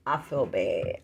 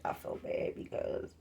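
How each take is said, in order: First: Said in the usual way. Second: Whispering I feel bad, hushed and unvoiced; a real hushed confession of guilt; whispered. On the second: Real, not acted. Repeats the line, whispered.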